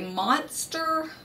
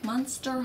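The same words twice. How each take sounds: First: The first vowel sounds like the 'o' in 'hot'. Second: The first vowel sounds like the 'u' in 'hut'. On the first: "Which is probably the correct monster" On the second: "with it like a U, but there's an O in it"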